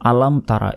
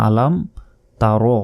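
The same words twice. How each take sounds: First: "তারা" said with a plain open "a" ending; wrong way. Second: "তারো" with the rounded "o" ending; correct way. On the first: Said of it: "এভাবে বলি, এটা ভুল". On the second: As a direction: say "তারো" with a rounded final vowel. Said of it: "বলতে হবে". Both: Shown as a demonstration.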